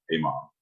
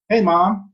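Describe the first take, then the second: First: Low, offhand bass; same greeting dropped into a deep voice; suddenly deep, matter-of-fact boy; voice after breaking. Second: High, loud mock kid voice; imitated unbroken boy voice; voice before breaking. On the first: Retold or imitated. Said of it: "Next I was like". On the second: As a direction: call it out high and piping, like a boy. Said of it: "One day I was like".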